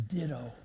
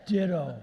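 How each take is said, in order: First: Retold tearful reply. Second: Punchy, louder one-word comeback; offhand stock reply. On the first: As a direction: say it gently, as if through tears. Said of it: "she's crying, and she says". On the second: Retold or imitated. Sam's usual answer to Molly's love, brisk and loud. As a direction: toss it out loudly as a punchline.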